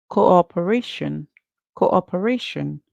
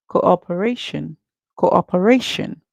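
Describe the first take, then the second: Both takes have the same delivery.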